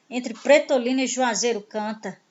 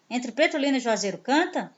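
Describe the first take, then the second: First: Said in the usual way. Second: Softer questioning tune that lifts on "canta". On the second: Shown as a demonstration. Teacher rereading the song line to show it asks, questioning on "canta". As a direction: say "Entre Pretolina e Juazeiro canta?" as a question.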